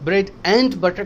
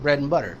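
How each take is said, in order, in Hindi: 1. 'and' पूरा बोला जाता है, उसके d के साथ। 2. 'and' छोटा होकर एक जुड़े हुए n जैसा बोला जाता है।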